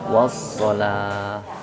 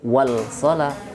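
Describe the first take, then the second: First: The 'l' merges into a doubled 's' sound. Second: The 'l' is pronounced clearly before the 's'. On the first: The speaker calls it right. "tapi was-shalah" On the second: The speaker calls it wrong. "tidak wal-shalah"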